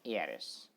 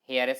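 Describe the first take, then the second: First: The word begins with a vowel sound. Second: The word begins with an h sound. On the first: The speaker calls it right. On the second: The speaker calls it wrong. "हेयरएस नहीं"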